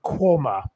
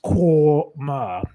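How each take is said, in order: First: Said in the usual way. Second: "Quormor" slowly in two drawn-out syllables, KWOR-MA; sounded out. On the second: Shown as a demonstration. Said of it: "It's pronounced".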